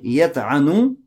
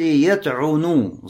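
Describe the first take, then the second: First: The middle vowel is an a sound. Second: The middle vowel is an u sound. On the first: It refers to abstract defaming of someone. "с фатхой" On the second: It refers to physical striking. "с даммой"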